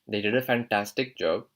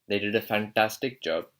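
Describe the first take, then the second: Both takes have the same delivery.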